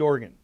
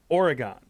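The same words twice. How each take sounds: First: The word sounds like 'organ'. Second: The word does not sound like 'organ'. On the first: This is how locals of the state say it. "you pronounce it like the instrument with keys in the church, organ" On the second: This is how it is said in Michigan. "in Michigan, I pronounce the state of Oregon Oregon"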